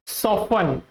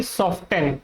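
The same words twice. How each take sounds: First: "soften" as SOFF-un, no T; correct, silent T. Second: "soften" as SOFT-en, T pronounced; incorrect, sounded T. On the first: Teacher repeats what to say, T silent. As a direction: drop the T from "soften". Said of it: "आपको क्या बोलना है इसको". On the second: Teacher shows what not to say, T sounded. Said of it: "ना कि soften". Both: Shown as a demonstration.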